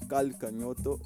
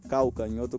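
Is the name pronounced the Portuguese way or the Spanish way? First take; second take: Spanish; Portuguese. First: The name is said with Spanish pronunciation. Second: The name is said with Brazilian Portuguese pronunciation.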